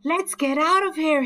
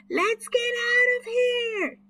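First: High, louder urgent call; boy fleeing a dinosaur, raised call. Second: High, loud yell; boy fleeing a fierce dinosaur, high yell. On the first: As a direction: call the others to run. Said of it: "he called". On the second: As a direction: scream at the others to flee. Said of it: "yelled Chip". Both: A narrator's reading.

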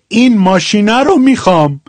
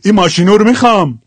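First: Said in the usual way. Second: Quicker Shirazi ending, u in ماشینو; Shirazi accent. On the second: Shown as a demonstration. (ماشینو با لهجهٔ شیرازی) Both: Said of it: "حال شیرازیش".

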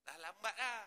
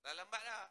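The two takes are said the same way.

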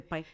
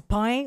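First: "pain" with a standard French vowel; standard pronunciation. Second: "pain" with her regional Abitibi vowel; regional pronunciation. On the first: Contrasting her accent for the host, standard "pain". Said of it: "au lieu de dire pain". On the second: Defending her accent to the host, regional "pain". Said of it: "c'est juste que je dis pain". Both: Shown as a demonstration.

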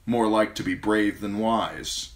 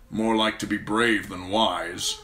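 First: Wry inner recollection of the phrase; remembered words. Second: Slow, cold dismissive judgement; Lord Tywin's voice. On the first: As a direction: muse on it to himself. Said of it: "Tyrion remembered". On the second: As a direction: deliver it like a cool verdict. Tywin's original verdict, later recalled. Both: A narrator's reading.

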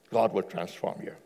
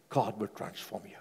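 First: Said in the usual way. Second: Soft assurance. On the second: Real, not acted.

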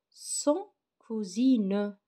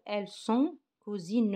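First: "sont cousines" drawn out very slowly, "sont" stressed; slow model reading. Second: Said in the usual way. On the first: Shown as a demonstration. Teacher modelling "sont" slowly for pupils. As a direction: drag out "sont" for the class to hear. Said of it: "Elle se prononce sont". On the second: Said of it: "Je répète".

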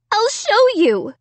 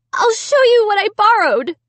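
First: High urgent cry. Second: High, loud insistence; urgent insisting. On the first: Amy insisting to her family, high urgent cry. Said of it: "I cried". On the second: Amy proving her innocence, high and loud. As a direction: push it out urgently. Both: A narrator's reading.

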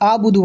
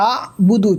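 First: আবুদু run together with a plain opening vowel; dropped ayin. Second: আবুদু with a throaty ayin stop after আ; ayin pronounced. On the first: Teacher shows learners the common mistake, আবুদু without ayin. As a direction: say আবুদু straight through, no throat catch after আ. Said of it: "আবুদু বললে ভুল হবে". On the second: Teacher models it for learners, ayin sounded in আবুদু. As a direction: catch আ in the throat, then finish বুদু. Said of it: "আইনটা উচ্চারণ করার". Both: Shown as a demonstration.

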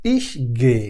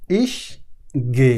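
First: Said in the usual way. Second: ইস and গে given separately with a pause between them; slow split words. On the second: Shown as a demonstration. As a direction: set ইস and গে apart, slowly. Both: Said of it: "আমি যাই".

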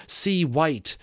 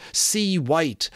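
Both takes have the same delivery.

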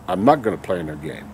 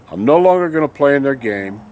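First: Quieter repeat. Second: Said in the usual way. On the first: Real, not acted. Vlogger repeats his refusal to viewers, lower and softer. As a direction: lower and softer, half to himself.

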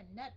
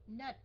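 First: NUT cut off without its T; thiếu âm cuối. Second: NUT with a released final T; có âm T cuối. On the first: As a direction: demonstrate NUT with no ending sound. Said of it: "chứ không phải là nut". (đọc "nut" không có âm T) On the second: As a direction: sound the T ending of NUT. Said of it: "có cái âm T". (đọc "nut" bật rõ âm T) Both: Shown as a demonstration.

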